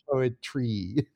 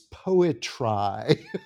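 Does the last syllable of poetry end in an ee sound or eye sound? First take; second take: ee sound; eye sound. First: The last syllable is said with an ee sound. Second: The last syllable is said with an eye sound. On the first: The word keeps its everyday pronunciation. The speaker calls it right. "he says poetry" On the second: The word is bent to rhyme with the line before. The speaker calls it wrong. "Like that"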